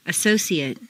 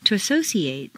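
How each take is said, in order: First: "Associate" ending in weak "-ee-ut"; reduced ending. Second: "associate" ending in long "-ee-ATE"; full A ending. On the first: Teacher models "Associate" with reduced final vowel. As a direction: shrink the last vowel of "Associate". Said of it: "completely reduced". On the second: Teacher models verb "associate" with full final A. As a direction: open out the last A of "associate". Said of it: "it's a full A sound". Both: Shown as a demonstration.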